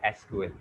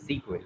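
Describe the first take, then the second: First: It is spelled out as three separate letters. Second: It is said as one word, sequel. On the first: The speaker calls it wrong. "don't call it SQL" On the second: The speaker calls it right. "it's a sequel"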